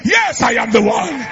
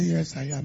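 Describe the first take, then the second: First: Hammed-up loud "Yes, I am the one"; mock scream. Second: Calm answer. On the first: Shown as a demonstration. Pastor showing the screaming answer she expected, mock shout. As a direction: shout it like quarreling on the road. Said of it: "be screaming and be quarreling on the road". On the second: Retold or imitated. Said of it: "that's not the kind of voice I heard".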